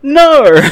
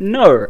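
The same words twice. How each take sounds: First: "No" blurted very loud and high as "norr". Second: "No" said with an R, like "nor"; Australian NO. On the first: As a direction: belt "No" with a big R on the end. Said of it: "There's definitely an R in there". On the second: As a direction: put an R on the end of "No", louder. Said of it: "why I put an R". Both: Retold or imitated.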